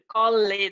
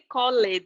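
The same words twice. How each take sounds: First: The ending is pronounced, giving two syllables. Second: The ending is pronounced, giving two syllables.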